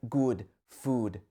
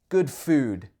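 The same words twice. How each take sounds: First: Both words have the same vowel sound. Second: Good has a shorter vowel than food. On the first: The speaker calls it wrong. "you might say something like good food, uh, but these are different sounds" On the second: The speaker calls it right. "The uh is much shorter"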